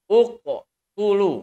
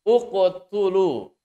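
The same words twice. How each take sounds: Both takes have the same delivery.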